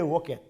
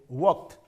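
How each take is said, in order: First: The ending is an extra syllable, like 'id'. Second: The ending is a plain t sound, one syllable. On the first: The speaker calls it wrong. "we cannot say walked" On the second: The speaker calls it right. "It's like pronounced as W A L K T"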